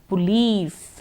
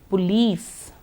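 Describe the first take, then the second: Both takes have the same delivery.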